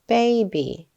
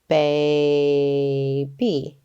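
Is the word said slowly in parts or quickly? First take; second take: quickly; slowly. First: The word is said quickly as one unit. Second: The word is said slowly, syllable by syllable. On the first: "Say it fast" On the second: "let's sound out our word"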